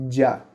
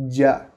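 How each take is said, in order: No difference in how they are said.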